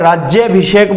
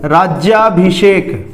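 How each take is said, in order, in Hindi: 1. 'rajy' के बाद का स्वर ह्रस्व 'a' है। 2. 'rajy' के बाद का स्वर दीर्घ 'aa' है। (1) "गलत बोलते हैं, राज्याभिषेक बोल देते हैं" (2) "एक शब्द है राज्याभिषेक"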